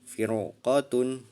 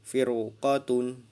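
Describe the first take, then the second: Both takes have the same delivery.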